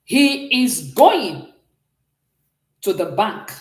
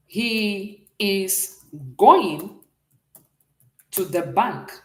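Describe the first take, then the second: First: Drawn-out, slow English gloss; slow, careful model line; slow demo reading. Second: Very slow, drawn-out going; slow teacher model line; slow gloss. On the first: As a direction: stretch out going as you read it. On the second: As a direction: read it slowly for the class. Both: Shown as a demonstration. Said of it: "I want to say something like this".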